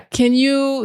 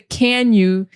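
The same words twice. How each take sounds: First: The word 'can' has a short, reduced vowel. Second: The word 'can' has a full, clear vowel. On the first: The speaker calls it right. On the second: The speaker calls it wrong.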